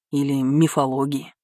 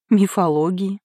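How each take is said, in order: First: Said in the usual way. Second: "Мифологии" lifted into a puzzled question; "Мифологии" as a surprised query, pitched up; questioning echo. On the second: A narrator's reading. Echoes the brother's word, puzzled.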